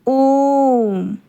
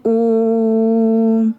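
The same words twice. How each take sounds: First: ओम held very long and loud; ओम chanted with a very long vowel; prolonged vowel. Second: ओम stretched slowly, louder; ओम held very long, like a mantra; prolonged vowel. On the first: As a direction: draw out ओम as a chant. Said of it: "आप खुद ओम का उच्चारण करते समय देखिए". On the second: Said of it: "ओम में आप देखिए कितना लंबा समय". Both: Shown as a demonstration.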